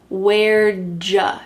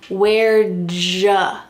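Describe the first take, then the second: No difference in how they are said.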